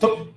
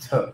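First: The word is clipped and the pitch jumps up. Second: The word is said calmly with a level pitch. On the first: The speaker calls it wrong. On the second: The speaker calls it right.

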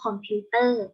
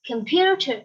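First: It is said with flat Thai-style syllables. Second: It is said with a lively English-style accent. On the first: "ภาษาไทยเราจะพูดว่าคอมพิวเตอร์" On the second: "ภาษาอังกฤษเราจะพูดแบบออกมีสำเนียงแอคชั่นนิดนึง"

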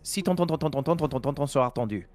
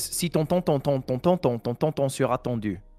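First: It is said at a fast pace. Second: It is said at a slow pace.

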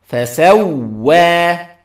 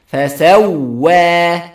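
Both takes have the same delivery.

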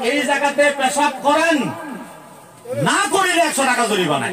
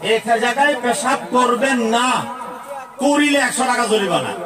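First: The pause comes right before the word 'na'. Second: The pause comes right after the word 'na'.

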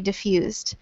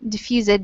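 First: The ending adds no extra syllable. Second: The ending is said as an extra syllable. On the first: The speaker calls it right. "but we just say diffused" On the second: The speaker calls it wrong. "we don't pronounce it like diffused"

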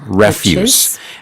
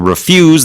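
First: The stress is on the first syllable. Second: The stress is on the second syllable. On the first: It is the noun meaning garbage. "And that's simply garbage" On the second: It is the verb meaning to decline. "So to refuse, that's the verb"

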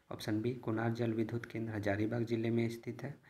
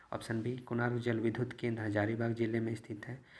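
Both takes have the same delivery.

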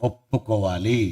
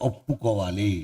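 No difference in how they are said.

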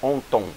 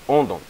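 First: The middle consonant is a T sound. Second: The middle consonant is a D sound. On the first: The speaker calls it wrong. "Então não é onton" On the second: The speaker calls it right. "aqui assume um som de D"

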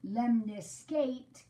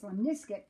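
First: The last syllable sounds like 'eight'. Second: The last syllable does not sound like 'eight'. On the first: The speaker calls it wrong. "if I pronounce this wrong" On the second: The speaker calls it right. "This is actually pronounced lemniscate"

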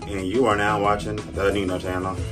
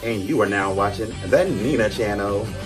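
First: It is said with less energy. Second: It is said with more energy.

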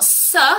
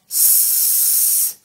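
First: The sound is voiced with the vocal cords. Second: The sound is just breathed out, unvoiced. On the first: The speaker calls it wrong. "it's not s" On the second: The speaker calls it right. "Let's just breathe it"

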